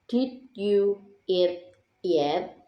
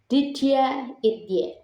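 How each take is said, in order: First: The word you is said fully and separately. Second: Did and you blend together into didja. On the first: "normal first" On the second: "and then assimilated version"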